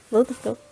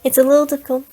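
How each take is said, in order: First: Said in the usual way. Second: Put-on a mild try at her odd accent; Akasha accent attempt. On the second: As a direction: test the weird accent on "a little difficult". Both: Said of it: "I'm trying to get her voice down".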